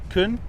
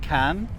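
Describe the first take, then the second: First: The vowel is reduced to a schwa. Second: The vowel is full. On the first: "the vowel sound is being turned into an uh" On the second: "can becomes"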